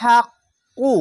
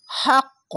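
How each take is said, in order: First: হাক্কু said with a full vowel u at the end, not stopped; wrong ending. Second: হাক্ক ending in a bounced, echoing ক with no vowel; qalqala stop. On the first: Teacher shows the wrong way to stop on হাক্কু, higher and louder. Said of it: "এখানে হাক্কু না বলে". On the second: Teacher shows the correct qalqala stop, higher. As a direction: punch the final ক of হাক্ক so it rebounds. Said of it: "হাক্ক ধাক্কা মেরে কলকলাটি". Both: Shown as a demonstration.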